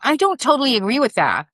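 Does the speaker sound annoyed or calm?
annoyed. The tone is sharp and annoyed. It will likely be perceived as an attack. The speaker calls it wrong. "listen to my tone. Like it bothers me"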